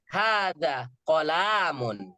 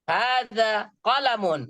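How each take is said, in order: First: The vowel after the l is long. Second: The vowel after the l is short. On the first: The speaker calls it wrong. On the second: The speaker calls it right.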